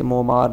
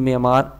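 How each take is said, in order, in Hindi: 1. पहला स्वर 'o' की ध्वनि है। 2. पहला स्वर 'e' की ध्वनि है। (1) "जिसे मोमार या मामार हम पढ़ते हैं" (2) "लेकिन मेमार इसकी असल प्रोनाउंसिएशन है"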